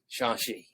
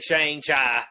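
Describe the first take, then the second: First: The name is pronounced differently from its spelling. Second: The name is pronounced the way it is spelled. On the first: The speaker calls it right. "It's Shang-Chi" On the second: The speaker calls it wrong. "It ain't Shang-Chi, even though that's what it says"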